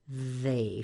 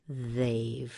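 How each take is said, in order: No difference in how they are said.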